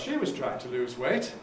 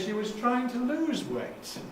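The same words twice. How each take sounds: First: The main stress falls on the word she. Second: The main stress falls on the word lose. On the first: She did it, unlike other people. "even if you're not, or even if the others aren't" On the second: She wanted to reduce weight, not gain it. "she wasn't trying to get heavier, she was trying to lose weight"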